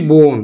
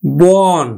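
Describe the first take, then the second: First: বন said with closed o, বোন; o-kar pronunciation. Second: বন with a long open ɔ; open spelled vowel. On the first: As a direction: round the vowel of বন to bon. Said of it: "এটাকে আমরা উচ্চারণ করি". (ও-কার দিয়ে বোন) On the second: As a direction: say বন as written, bɔn. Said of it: "আদ্য অ". (অ-ধ্বনি দিয়ে বন) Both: Shown as a demonstration.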